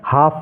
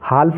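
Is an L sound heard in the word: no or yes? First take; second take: no; yes. First: No L sound is heard before the F. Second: The L sound is pronounced before the F. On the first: The speaker calls it right. "हाफ पढ़ना है" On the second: The speaker calls it wrong. "हाल्फ नहीं पढ़ना है"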